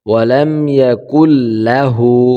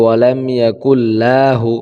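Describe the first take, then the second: First: The vowel in la is kept short. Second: The vowel in la is drawn out.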